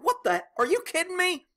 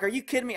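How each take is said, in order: First: "Are you kidding me?" jumps way up high in mock disbelief; hammed-up outrage at the dead car. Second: Said in the usual way. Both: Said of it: "I'm like".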